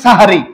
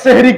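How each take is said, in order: First: The word starts with an 'a' vowel. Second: The word starts with an 'e' vowel. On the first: It names the pre-dawn meal. The speaker calls it right. "বলবেন সাহারি" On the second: It sounds like the Arabic word for magic. The speaker calls it wrong. "অনেকে সেহরি কই"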